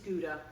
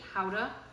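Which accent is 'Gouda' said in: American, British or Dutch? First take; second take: American; Dutch. First: It is said with an American pronunciation. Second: It is said with a Dutch-style pronunciation. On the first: It is how North Americans say it. "this is Gouda in America and Canada" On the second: It follows the cheese's home country. "I'm pronouncing it howdah because Lisa comes, her family come from Holland"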